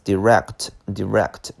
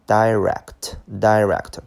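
First: "direct" as dih-RECT; short-i direct. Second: "direct" as DIE-rect; alternative pronunciation. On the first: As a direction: say "direct" with a short i in the first syllable. (direct第一个音节读短音di) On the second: (direct第一个音节读成dai) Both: Shown as a demonstration. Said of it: "那么也可以读".

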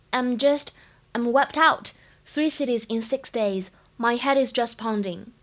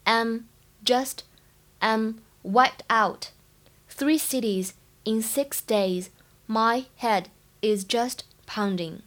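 First: Said in the usual way. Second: Slow, careful model reading with every sound clear; slow teaching read of "I'm wiped out"; slow demo read. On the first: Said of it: "整句话呢，在朗读过程当中注意一下". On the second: Shown as a demonstration. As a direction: read it slowly so students can copy each sound. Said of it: "应该是读wiped，wiped是清辅音".

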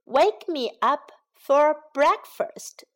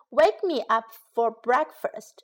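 First: Slow, drawn out. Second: Said in the usual way. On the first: Shown as a demonstration. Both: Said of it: "叫醒我吃早餐".

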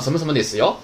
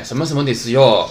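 First: ですよ with よ lifting at the end; rising tone on よ. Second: ですよ with よ dropping at the end; falling tone on よ. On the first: Showing students the other reading of the particle, よ rising. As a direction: send the final よ upward. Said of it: "你升也可以". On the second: Showing students one reading of the particle, よ falling. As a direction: let the final よ fall. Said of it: "降也可以". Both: Shown as a demonstration.

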